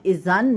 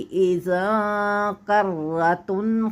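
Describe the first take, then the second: First: The n sound is pronounced clearly. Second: The n sound is hidden before the k. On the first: The speaker calls it wrong. "अब इज़न नहीं पढ़ा जाएगा" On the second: The speaker calls it right. "बल्कि इज़ा कर्रतुन"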